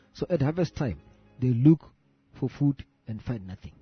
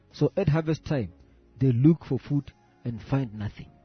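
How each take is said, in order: The two takes are said the same way.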